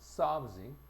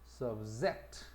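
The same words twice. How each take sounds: First: The stress is on the first syllable. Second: The stress is on the second syllable. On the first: It is used as a noun or adjective. "강세가 앞에 있어" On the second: It is used as a verb. "동사가 되면 subject"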